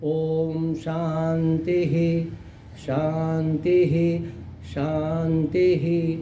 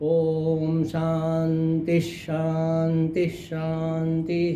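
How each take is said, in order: First: Each word ends in a breathy h, with pauses. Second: The words run together, linked by an s sound. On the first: "જો તમારે ત્યાં રોકાવું હોય, શ્વાસ લેવો હોય તો વિસર્ગ બોલવાનો" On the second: "જો સળંગ બોલવું હોય તો વિસર્ગનો અડધો સ થઈ જાય"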